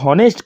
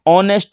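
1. शब्द h ध्वनि से शुरू होता है। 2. शब्द सीधे स्वर से शुरू होता है। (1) "हॉनेस्ट की बजाय" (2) "ऑनेस्ट बोला जाता है"

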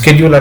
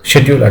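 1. ఈ పదం sk శబ్దంతో మొదలవుతుంది. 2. ఈ పదం sh శబ్దంతో మొదలవుతుంది. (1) "అమెరికన్ ఇంగ్లీష్లో దీన్ని స్కెడ్యూల్ అంటారు" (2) "బ్రిటిష్ ఇంగ్లీష్లో షెడ్యూల్ అంటారు"

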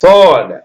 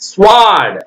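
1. 's' க்குப் பிறகு 'w' ஒலி கேட்காது. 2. 's' க்குப் பிறகு 'w' ஒலி கேட்கும்.

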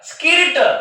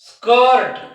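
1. 'r' च्या आधी हा स्वर 'ee' सारखा वाजतो. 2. 'r' च्या आधी हा स्वर 'er' सारखा वाजतो. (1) "स्किर्ट नाही" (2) "आयचा उच्चार देखील अच होतो"

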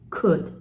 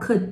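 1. could は喉の音を使って発音されています。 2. could は喉の音なしで発音されています。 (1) "もっとなんか喉な感じだよね。" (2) "could とか言った。"

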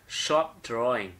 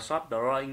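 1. Từ đầu tiên bắt đầu bằng âm sh nặng. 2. Từ đầu tiên bắt đầu bằng âm s nhẹ. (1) "Shop là sờ nặng nhá" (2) "chúng ta không đọc là shop drawing như thế này"

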